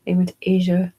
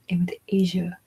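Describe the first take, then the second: First: Said in the usual way. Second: Whispered aside. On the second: Shown as a demonstration. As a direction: drop into a secret whisper.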